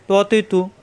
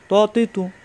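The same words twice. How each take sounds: Both takes have the same delivery.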